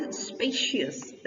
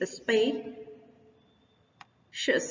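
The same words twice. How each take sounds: First: Said in the usual way. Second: Spacious broken as SPAY, long pause, "shus"; syllable-by-syllable stress. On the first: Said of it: "first वाले syllable पर". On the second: Shown as a demonstration. Teacher breaking the word down, spacious as SPAY, pause, "shus". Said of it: "first वाले syllable पर जा रहा है".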